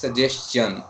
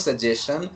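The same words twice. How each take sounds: First: The ending sounds like the end of 'question'. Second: The ending does not sound like 'question'. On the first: The speaker calls it right. "Say it like question" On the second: The speaker calls it wrong. "That is not suggestion"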